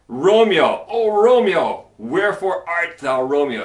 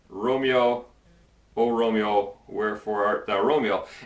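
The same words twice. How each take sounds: First: It is read with lively, animated feeling. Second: It is read flat, without animation.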